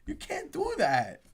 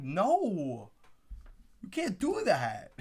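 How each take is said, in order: First: Put-on higher, whinier pouting kid. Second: Mock whiny little kid; kid pouting. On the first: Fan pouting like a kid over the trade. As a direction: whine it like a small child. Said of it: "a little kid pouting". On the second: Fan imitating a pouting little kid at the draft. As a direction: pout it like a child. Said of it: "I feel like a little kid pouting".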